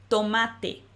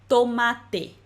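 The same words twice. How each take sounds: Both takes have the same delivery.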